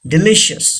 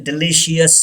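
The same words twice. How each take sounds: First: DELICIOUS as di-LISH-us; three syllables in "delicious"; correct pronunciation. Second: DELICIOUS as di-LI-shee-us; wrong pronunciation. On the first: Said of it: "don't say delicious". (delicious को "डिलिशस" बोलें) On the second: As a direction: add an "ee" before the end of "delicious". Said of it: "ये wrong है". (delicious को गलत "डिलीशियस" बोलें) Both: Shown as a demonstration.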